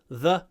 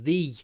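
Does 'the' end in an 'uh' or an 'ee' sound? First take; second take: uh; ee. First: The vowel is a short, weak 'uh'. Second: The vowel is a clear 'ee'. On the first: This is the usual form before a consonant. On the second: This is the form used before a vowel.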